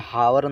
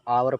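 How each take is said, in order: First: The word begins with an h sound. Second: The word begins directly with a vowel. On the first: The speaker calls it wrong. "इसे हावर नहीं पढ़ा जाएगा" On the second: The speaker calls it right. "आवर पढ़ा जाएगा"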